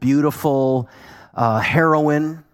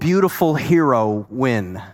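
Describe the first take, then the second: First: The word ends with a short, plain 'in' sound. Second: The word ends with a drawn-out 'win' sound. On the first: The speaker calls it wrong. "Heroine sounds too narcotic-y" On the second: The speaker calls it right. "A bold, beautiful hero win, right?"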